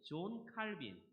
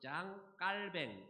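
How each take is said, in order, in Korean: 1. 이 이름은 한국식 발음으로 말해요. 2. 이 이름은 프랑스식 발음으로 말해요.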